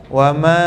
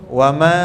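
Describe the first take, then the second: The two takes are said the same way.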